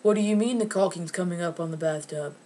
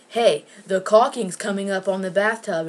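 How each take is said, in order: First: Imitated clueless question. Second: Loud, matter-of-fact heads-up; retold announcement. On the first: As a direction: parrot it back as a puzzled question. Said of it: "your mouth to be like". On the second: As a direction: point out the problem loudly. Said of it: "If I say".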